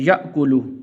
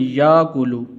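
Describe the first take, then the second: First: A glottal stop follows the first syllable. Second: A long vowel replaces the glottal stop. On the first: The speaker calls it right. "इस लफ्ज़ को आपने ऐसे पढ़ना है" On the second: The speaker calls it wrong. "बाज़ लोग इसको पढ़ते हैं याकुलू, याकुलू नहीं पढ़ना भाई"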